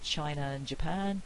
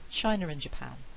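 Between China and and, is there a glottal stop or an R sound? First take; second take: glottal stop; R sound. First: A glottal stop separates China from and. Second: An R sound links China to and. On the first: "I can say China and Japan with a glottal stop" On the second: "I can have an intrusive R in there"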